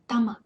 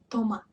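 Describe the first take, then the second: First: The first vowel is a short A sound. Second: The first vowel is a full O sound. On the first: The speaker calls it right. "it gets reduced and it reminds uh, a little bit of A" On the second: The speaker calls it wrong. "why isn't it tomat"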